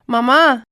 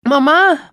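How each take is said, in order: First: Put-on girl calling mother, a bit louder. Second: A higher, louder cry of mum; children shouting. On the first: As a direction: call out to mum from bed. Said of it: "φωνάζει η Ουρανία". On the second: Retold or imitated. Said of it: "μου φωνάζουνε".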